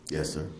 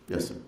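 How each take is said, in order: Both takes have the same delivery.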